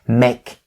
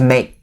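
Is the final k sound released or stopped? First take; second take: released; stopped. First: It is said slowly with a clearly released k. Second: It is said fast with the k stopped, unreleased. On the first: "make sure that you enunciate the k sound like the way that I'm doing right here" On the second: "So the k sound is going to be perfectly stopped right there"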